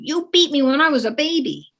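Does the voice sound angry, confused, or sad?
angry. It is said in an angry tone. The child is angry about it. "is your child saying it with anger?"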